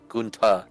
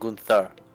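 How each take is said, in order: First: The middle consonant is a plain t sound. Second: The middle consonant is a th sound. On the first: The speaker calls it right. "It is Gunta" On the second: The speaker calls it wrong. "not Gunther"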